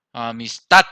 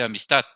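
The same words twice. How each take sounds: First: "amistad" with a loud, punched final "tad"; "amistad", final syllable much louder than the rest; stress on last syllable. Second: Said in the usual way. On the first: Shown as a demonstration. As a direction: hit the "tad" of "amistad" hard. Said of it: "esa es la sílaba tónica". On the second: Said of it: "tenemos la mayor fuerza".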